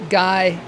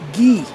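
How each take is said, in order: First: It is said like the English word guy. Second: It is said like the French name Guy.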